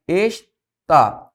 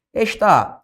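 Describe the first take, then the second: First: "está" broken in two, es, pause, tá; syllable by syllable. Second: Said in the usual way. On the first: Shown as a demonstration. Teacher separating "está" for students, syllable by syllable.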